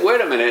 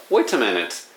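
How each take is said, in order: First: Wait a minute in American English, flapped t in "wait a"; American accent. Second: "wait a minute" with an attempted British accent; lightly British "wait a minute", crisp t in "wait". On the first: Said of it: "it sounds like American". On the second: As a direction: say "wait a minute" like an English person, t pronounced. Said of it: "British accent". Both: Shown as a demonstration.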